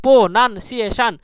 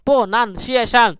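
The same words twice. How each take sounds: The two takes are said the same way.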